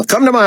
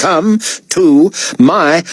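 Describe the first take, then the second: First: High, brisk artiste's command; brisk order. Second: "come to my" slow, each word separated; exasperated word-by-word repeat. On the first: Artiste summoning David to the office, brisk command. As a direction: order it in one high, quick run. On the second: Artiste repeating the order to David, slow and exasperated. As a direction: spell out the order slowly, word by word. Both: A narrator's reading.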